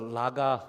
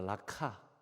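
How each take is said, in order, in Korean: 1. 가운데 자음은 부드러운 g 소리예요. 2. 가운데 자음은 거센 k 소리예요. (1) "리을 기억이잖아요" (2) "근데 원래 발음은 이, 이 라카입니다"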